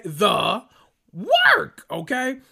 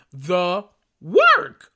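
First: "The work" leaping way up into a high squeal, rising at the end; squealed emphasis. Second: "The work" punched much louder, drawn out; stress on work. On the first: Repeating the point, peaking. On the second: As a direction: lean hard on "work" to drive it home. Hammering Monyetta's work. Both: Real, not acted.

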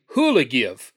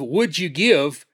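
First: "who'll give" run together as one short slurred word; "who'll give" blurred into hoo-la-give; chopped-down filler. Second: "would you give" slow, each word separate; careful, drawn-out "would you give"; fully enunciated. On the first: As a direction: squash "would you give" into a loose "who'll give". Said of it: "you just chop words down". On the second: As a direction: spell out "would you give" as three clear, unhurried words. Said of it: "Instead of "would you give," you might say". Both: Shown as a demonstration.

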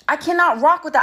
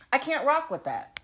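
First: Cannot spelled out in full and said louder; stress on cannot. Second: Said in the usual way. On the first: Shown as a demonstration. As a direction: lean hard on cannot, full and loud.

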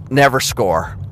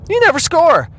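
First: Said in the usual way. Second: "never" jumps high, falling hard; stress on never. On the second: Shown as a demonstration. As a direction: hit "never" high, then drop.

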